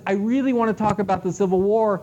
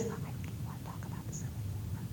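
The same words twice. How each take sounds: First: Said in the usual way. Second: Whispered, voiceless and very soft. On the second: Shown as a demonstration. Patron asking the librarian, in a whisper. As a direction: barely breathe the words out. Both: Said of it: "they talk like this".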